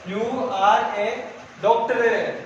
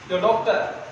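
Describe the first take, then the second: First: Each word is stressed, especially the last. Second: You and are merge in British style.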